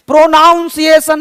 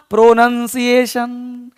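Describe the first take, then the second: First: प्रोनाउंसिएशन with "naun" as in pronounce; wrong pronunciation. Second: प्रोनंसिएशन slow and measured, with "nun"; correct pronunciation. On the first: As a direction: demonstrate what to avoid, प्रोनाउंसिएशन with "nown". (गलत उच्चारण प्रोनाउंसिएशन, बीच में "नाउन") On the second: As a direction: model प्रोनंसिएशन slowly, short vowel in "nun". (सही उच्चारण प्रोनंसिएशन, धीमे, "नन" के साथ) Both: Shown as a demonstration. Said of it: "नहीं बोलना".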